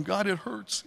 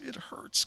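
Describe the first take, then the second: First: Said in the usual way. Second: Hushed, breathless whisper of pain; whispered aching prayer; whispered complaint. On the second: Retold or imitated. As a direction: drop to a whisper on the repeat, hurting. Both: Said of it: "I might complain".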